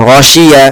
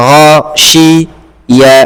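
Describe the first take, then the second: First: Said in the usual way. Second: গাসিয়া drawn out very slowly, syllable by syllable; broken into syllables. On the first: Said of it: "গাসি কেন বলছো?". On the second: Shown as a demonstration. Teacher showing the student how to break গাসিয়া, very slow. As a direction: spell গাসিয়া out slowly piece by piece. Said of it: "ভেঙে ভেঙে পড়ো".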